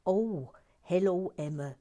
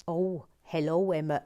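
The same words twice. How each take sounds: First: A hammed-up friendly hello; Sophie Grubble's voice. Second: A first loose try at her hello; lightly imitated cheery hello; Sophie Grubble's voice. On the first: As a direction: settle fully into her greeting. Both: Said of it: "I always have to do Sophie Grubble's voice".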